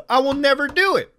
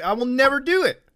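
First: Pushed harder, a touch louder; louder repeat. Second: Said in the usual way. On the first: Real, not acted. Refusing Funimation Premium again, said with more force. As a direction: drive the refusal home a second time. Vows never to pay, repeats it.

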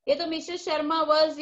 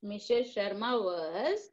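First: Was said louder and firmly at the end; ये तो Mrs Sharma was with a firm, loud was; stress on was. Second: Slow, drawn-out dictation with a rise on was; slow teacher dictation. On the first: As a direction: land hard on was. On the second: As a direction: spell it out slowly for the class. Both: Shown as a demonstration. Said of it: "ये जो है question में ही है".

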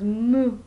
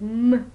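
First: Louder mock moo; toddler moo. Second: Louder still, mock cow moo; louder toddler moo. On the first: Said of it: "he goes moo". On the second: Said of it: "like, moo".

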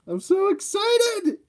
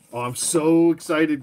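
First: High, slow squeal of excitement; excited. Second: Said in the usual way. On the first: Real, not acted.

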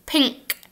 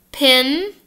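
First: "Pink." with a nasal NG then K, softer. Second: "Pin." ending on a front N. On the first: Teacher contrasting pink with pin, nasal NK. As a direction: say "Pink." through the nose, ending on K. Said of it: "Now say pink". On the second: Teacher contrasting pin with pink, front N. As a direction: close "Pin." with the tongue tip. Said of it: "Say pin". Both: Shown as a demonstration.

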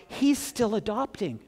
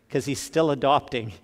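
First: Raised, hushed second take of "He's still adopting"; lifted repeat. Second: Said in the usual way. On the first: Shown as a demonstration. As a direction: lift "He's still adopting" up as a tender echo. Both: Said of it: "repeats phrase for emphasis".

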